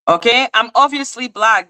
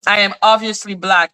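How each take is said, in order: First: Higher-pitched, exaggerated sarcasm; sarcastic. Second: Level, matter-of-fact statement; serious. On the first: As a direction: play up the obviousness sarcastically. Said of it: "reacted to it with sarcasm". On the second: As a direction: state it firmly without the sarcasm. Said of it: "which is serious". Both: Real, not acted.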